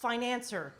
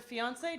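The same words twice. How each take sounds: First: "financer" in place of fee-ahn-SAY; mispronounced fiancé. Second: "fiancé" said the French-derived way, fee-ahn-SAY; correct pronunciation. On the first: Comic confessing her stupid mistake, fiancé mispronounced as "financer". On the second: Comic naming the disliked word, "fiancé" pronounced correctly as fee-ahn-SAY. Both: Shown as a demonstration. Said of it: "I would mispronounce it all the time".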